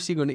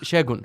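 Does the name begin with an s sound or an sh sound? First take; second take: s; sh. First: The name begins with an s sound. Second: The name begins with an sh sound. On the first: The speaker calls it wrong. "butchered your name there. I called you Sigun" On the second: The speaker calls it right. "It was uh, Sh- Shegun, right?"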